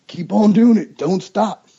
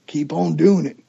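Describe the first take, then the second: First: Emphatic repeat. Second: Said in the usual way. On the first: Shown as a demonstration. Hunter urges his buddy to keep on calling, louder. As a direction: Keep on doing it louder and higher, insisting.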